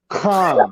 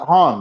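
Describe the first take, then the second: First: It starts with a sound between k and h. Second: It starts with a plain h sound. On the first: "some people do the in-between sound where they go" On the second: "Certain people say it with a H"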